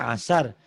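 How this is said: The word begins directly with a vowel. The speaker calls it right. "Harusnya kan asar"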